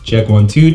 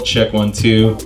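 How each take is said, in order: First: The voice has strong bass and body. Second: The voice has balanced bass, mids and highs. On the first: "You're hearing a lot more bass or body in my voice there" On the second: "which gives us the balance"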